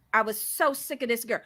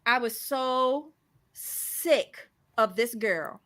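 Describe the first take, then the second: First: Said in the usual way. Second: Drawn out, very slow, fed up; slow exasperated sigh of a line; slow weary. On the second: Real, not acted. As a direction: drag it out in disgust.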